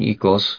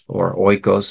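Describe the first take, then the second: First: It uses the modern Greek pronunciation. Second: It uses the traditional seminary Greek pronunciation. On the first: "I use the modern pronunciation" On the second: "if you believe Greek seminary"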